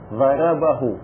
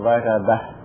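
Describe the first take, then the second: First: The word ends in -hu with a long vowel. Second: The word ends in a silent h, no vowel. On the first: "هاء ثم واو ضربه" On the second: "نحذف الواو ونحذف الضمة نقول ضربه"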